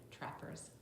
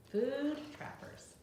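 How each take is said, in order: First: Said in the usual way. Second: Title read aloud. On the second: Shown as a demonstration. Reads the book title aloud.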